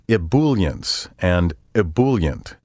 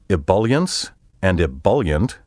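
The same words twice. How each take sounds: First: The second syllable sounds like bool. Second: The second syllable sounds like bulk. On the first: The speaker calls it wrong. "The bool and bule sounds are wrong" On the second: The speaker calls it right. "with the B U L pronounced as in the word bulk"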